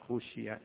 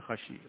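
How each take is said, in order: First: The first vowel is u, passive form. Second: The first vowel is a, active form. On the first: It was feared by others. The speaker calls it right. "خشي لأنه الصحابة رضوان الله عليهم ما عرفوا أين يدفنونه" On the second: He himself feared it. The speaker calls it wrong. "ليس خشي"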